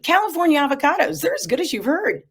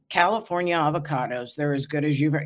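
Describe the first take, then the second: First: It is said in an excited, upbeat way. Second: It is said in a flat, unexcited way. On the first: "excited, upbeat" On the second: "It doesn't match the mood"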